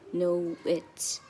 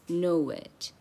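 First: The words are said separately and stiffly. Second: The words are joined with a w-like glide. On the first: The speaker calls it wrong. "很生硬的像" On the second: The speaker calls it right. "它是"

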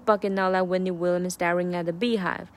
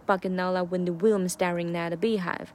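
First: Williams is weak and runs into nearby words. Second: Williams starts with a strong, breathy w sound. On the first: The speaker calls it wrong. "而不是" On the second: The speaker calls it right. "如果你把Williams 这个w 读重一点的话，感觉就有个断句在里面"

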